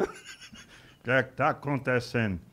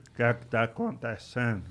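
First: Slow, dim-witted boxer voice; slow Maguila. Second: Maguila's voice. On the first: Maguila on the show, slowly asking what is going on. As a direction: drag it out like a puzzled heavyweight. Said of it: "Aí diz". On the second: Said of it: "vamos pedir calma, Maguila". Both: Retold or imitated.

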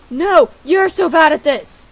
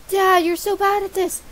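First: Louder comeback, punching YOU'RE; dad's retort. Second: Put-on higher-pitched kid griping at Dad; whining son voice. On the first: Acted. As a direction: throw it back at the son, loudly. Dad answers son back in kind. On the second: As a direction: play a son taunting his father. Acts son scolding dad in game.

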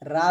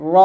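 First: রা with a thin, open aa; রা with the light aa instead of a thick vowel; wrong letter name. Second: র with a thick aw vowel, not aa; short, heavy র as the correct name. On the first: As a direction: say রা short and light, as the mistake. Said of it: "রা বলবেন না". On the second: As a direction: round out the sound of র without rounding the lips. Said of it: "মোটা করে র বলতে হবে". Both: Shown as a demonstration.

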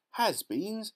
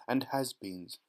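First: Much higher, rising question; puzzled by the odd word; surprised cry. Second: Said in the usual way. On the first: A narrator's reading. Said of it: "cried Violet Beauregarde".

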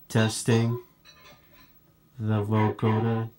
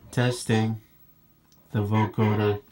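The two takes are said the same way.

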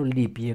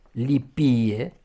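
First: Lipie stressed on the first i; wrong stress on first I. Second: Lipie with loud stressed second i, rising. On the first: Teacher shows the common mistake, lipie stressed first. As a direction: say 'LI-pie' for lipie. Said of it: "cum auzim pe primul I". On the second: Teacher models the right accent, Lipie stressed on second i. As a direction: say 'li-PI-e' for Lipie. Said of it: "lipie pe al doilea". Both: Shown as a demonstration.

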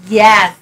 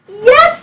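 First: Said in the usual way. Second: High, loud yes; a bright cry of welcome; witch's cry. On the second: Acted. Witch welcoming the frog, high loud cry. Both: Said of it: "said the witch".

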